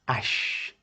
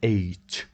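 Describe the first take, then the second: First: The letter is named as in French. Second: The letter is named as in English. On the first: The speaker calls it right. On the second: The speaker calls it wrong.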